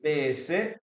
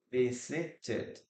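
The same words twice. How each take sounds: First: Visited broken up as vi-si-ted; teacher separating the final -ted in "visited"; three-syllable demo. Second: Visited in three measured beats, softer; teacher softly sounding out vi-si-ted in "visited"; three-syllable demo. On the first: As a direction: count out "visited" in three beats. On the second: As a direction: repeat "visited" gently, with the -ted fully voiced. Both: Shown as a demonstration. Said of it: "we have three syllables here".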